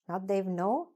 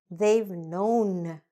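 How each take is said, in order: First: It is rushed and part of it is dropped. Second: Every sound is said slowly and clearly. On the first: The speaker calls it wrong. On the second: The speaker calls it right. "Try to speak accurately and clearly"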